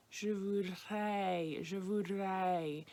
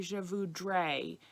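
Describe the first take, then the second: First: "je voudrais" with the R almost gone, slow; R nearly dropped. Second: "je voudrais" with a hard English R, the harsh way. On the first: Teacher giving the fallback without the R, slowly. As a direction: say "voudrais" as if there were no R. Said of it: "if we can't do that nasal R sound". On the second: Teacher showing the mistake learners should avoid. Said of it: "that's going to be very harsh". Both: Shown as a demonstration.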